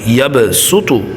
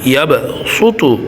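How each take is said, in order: First: The s sound is plain and light. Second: The s sound is emphatic and heavy. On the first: "সিনটা কি ধরলে ভালো হয়, সহজ হয়" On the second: "যদি সদ ধরে পড়েন কি হবে ইয়াব সু তু"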